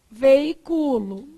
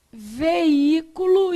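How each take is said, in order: First: "Veiculo" stressed on CU, slow. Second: "Veículo" stressed on Í, slow. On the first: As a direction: say "Veiculo" as vei-CU-lo, slowly. (tônica em CU: "Veiculo") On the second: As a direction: say "Veículo" as ve-Í-cu-lo, slowly. (tônica em Í: "Veículo") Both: Shown as a demonstration. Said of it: "dependendo da pronúncia da palavra".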